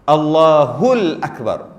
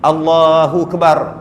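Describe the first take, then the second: First: The opening vowel of Akbar is clearly pronounced. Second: The opening vowel of Akbar is left out. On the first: The speaker calls it right. "Macam mana jangan buang?" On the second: The speaker calls it wrong. "Tak sebut yang depan. A, A tak ada"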